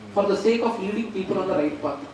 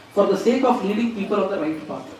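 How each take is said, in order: Both takes have the same delivery.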